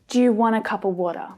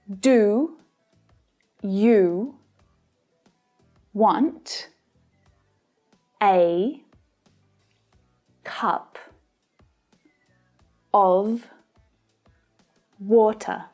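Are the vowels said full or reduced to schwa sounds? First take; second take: reduced; full. First: Many vowels are reduced to a schwa sound. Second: Each word keeps its full dictionary vowel. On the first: "full of schwa sounds when it's spoken at natural speed" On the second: "they should be pronounced like this"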